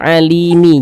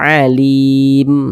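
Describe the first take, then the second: First: The word ends with an extra i vowel. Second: The word ends on the final m consonant. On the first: The speaker calls it wrong. "Jangan dibaca alimi" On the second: The speaker calls it right. "kalau kita berwakaf di huruf mim kita baca alim"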